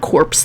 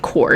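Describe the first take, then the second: First: The final p and s sounds are pronounced. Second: The final p and s sounds are silent. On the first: The speaker calls it wrong. "It's not corpse. That's just weird" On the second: The speaker calls it right. "that's how you say it"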